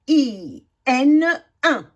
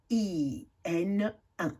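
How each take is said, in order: First: "I N un" spelled slowly, then "un" said clearly and louder; slow clear sounding out. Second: "I N un" repeated slowly and softly; softer repeat. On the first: Teacher modelling the sound for pupils, slow and clear. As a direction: sound out the letters slowly for the class to repeat. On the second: Teacher repeating the sound after the model, softer. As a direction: echo it quietly, slow. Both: Shown as a demonstration. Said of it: "Répétez".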